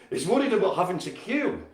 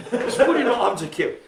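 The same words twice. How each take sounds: First: Said in the usual way. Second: Higher and louder through laughter; amused laughing repeat. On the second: Real, not acted. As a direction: crack up while repeating it.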